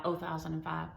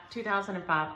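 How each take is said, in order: First: "oh thousand and five" with oh in place of two; saying oh for two. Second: Said in the usual way. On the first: Shown as a demonstration. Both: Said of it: "Y'all know oh thousand and five?".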